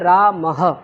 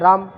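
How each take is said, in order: First: The word ends with an added breathy h sound. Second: The word ends plainly on the m sound. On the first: "इन दोनों बिंदियों का उच्चारण हा है" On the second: "ये तो सादा simple लिख दिया राम"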